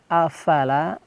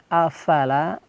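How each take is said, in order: First: The consonant is an f with escaping air. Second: The same.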